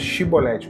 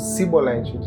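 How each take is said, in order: First: The word begins with an sh sound. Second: The word begins with an s sound. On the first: The speaker belongs to the group asking the question. The speaker calls it right. "mandavam pronunciar a palavra chibolete" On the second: The speaker belongs to the enemy tribe. The speaker calls it wrong. "eles falavam cibolete. A pronúncia deles era diferente"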